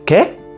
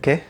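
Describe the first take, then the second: First: It is said in a sharp, aggressive tone. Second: It is said in a soft, humble tone. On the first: The speaker is hostile or offended. The speaker calls it wrong. "you are being a little bit um, aggressive, like" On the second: The speaker simply did not understand. The speaker calls it right. "try not to sound too aggressive, just sound like humble"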